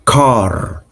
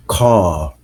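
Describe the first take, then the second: First: Car with the final R fully sounded; American pronunciation. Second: Car with no R at the end; Australian pronunciation. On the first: Teacher showing how Americans say car, R pronounced. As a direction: say "car" rhotic, R pronounced at the end. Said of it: "where an American will say". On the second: Teacher showing how Australians say car, R dropped. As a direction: say "car" non-rhotic, ending on an open vowel. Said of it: "Australian people will say car". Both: Shown as a demonstration.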